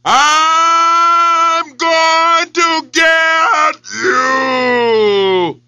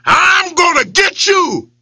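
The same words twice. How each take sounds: First: Very drawn-out echoing yell. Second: Yelled. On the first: Echo yells back at the lion. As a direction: stretch it like a well echo. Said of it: "it yelled directly back". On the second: Lion yells at his reflection, threatening. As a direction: yell it at your rival. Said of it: "he yelled at it". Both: Acted.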